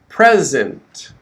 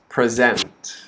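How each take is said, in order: First: The stress is on the first syllable. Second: The stress is on the second syllable. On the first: It is a noun or adjective meaning a gift or being here. "the stress is on the first syllable" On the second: It is a verb meaning to show or give a presentation. "The second word is a verb"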